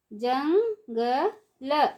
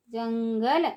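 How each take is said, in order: First: jungle stretched slowly, syllable by syllable; slow syllable drill. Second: Said in the usual way. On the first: Shown as a demonstration. Teacher drawing out jungle slowly for children. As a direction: draw out jungle for the class. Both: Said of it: "ऊंची आवाज़ में कैसे पढ़ेंगे".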